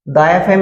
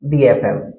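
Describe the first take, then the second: First: The word 'the' has a short 'thuh' vowel. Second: The word 'the' has a long 'thee' vowel. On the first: The speaker calls it wrong. "द F M नहीं होता है" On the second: The speaker calls it right.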